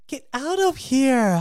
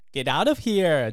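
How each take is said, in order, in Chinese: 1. 听起来又惊讶又开心。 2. 听起来很怀疑，有点不信。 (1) "用充满惊喜的口吻回答说" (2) "你觉得有点怀疑，就可以说"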